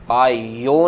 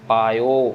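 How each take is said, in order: First: It is said with an added y-glide. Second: It is said with no added y-glide. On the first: The speaker calls it wrong. "पायो नहीं करना हमने, यैया नहीं लगाना" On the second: The speaker calls it right. "Make sure कि पायो की आवाज़ ही आ रही है"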